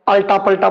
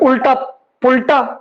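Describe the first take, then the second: First: The first vowels sound like 'a'. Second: The first vowels sound like 'u'. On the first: The speaker calls it wrong. "अल्टा पलटा बोल देना" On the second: The speaker calls it right. "धुनियात्मक दोष"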